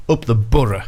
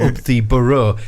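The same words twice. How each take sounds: First: BOROUGH as "Burra", in a Borough accent. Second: BOROUGH ending on a rounded "oh"; BOROUGH said the unlocal way. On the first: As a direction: local Borough accent, BOROUGH ending in a short "uh". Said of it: "He's got a great Borough accent". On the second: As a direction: finish BOROUGH with a clear "oh". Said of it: "he didn't say". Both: Shown as a demonstration.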